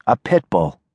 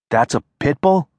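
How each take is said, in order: First: Said in the usual way. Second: Pit bull rising at the end; surprised question. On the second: Acted. Bob asks back, surprised.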